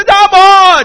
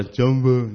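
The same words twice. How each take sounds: First: "Jumbo" yelled high and loud, stretched; shouted Jumbo. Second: "Jumbo" mumbled low and restrained; timid Jumbo. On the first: Preacher showing the congregation how to shout the greeting, loud and high. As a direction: call "Jumbo" out full voice. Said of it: "你要叫Jumbo". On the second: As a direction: say "Jumbo" shyly, holding back. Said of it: "保守的Jumbo". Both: Shown as a demonstration.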